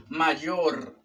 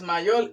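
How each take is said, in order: First: "mayor" ending in a clear R; "mayor" as ma-YOR; correct R. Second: "mayor" said as "mayol", ending in L; "mayor" mispronounced as ma-YOL; learner's L for R. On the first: Shown as a demonstration. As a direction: say "mayor" with final R, not L. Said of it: "es mayor". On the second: Retold or imitated. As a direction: imitate the mistake, "mayor" with final L. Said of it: "pero no es mayor".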